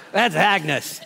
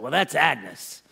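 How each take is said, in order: First: Said in the usual way. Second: Slow, drawn-out "Well, that's Agnes."; slow Harry drawl. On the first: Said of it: "that's how I'm gonna share it". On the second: Retold or imitated. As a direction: drag "that's Agnes" out slowly. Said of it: "I don't know if Harry talked this way".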